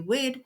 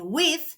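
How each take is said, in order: First: The final consonant is dropped. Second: The final consonant is clearly pronounced. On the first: This is the Jamaican form. "they drop off the last consonant or part of the word" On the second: This is the standard English form. "Instead of saying with"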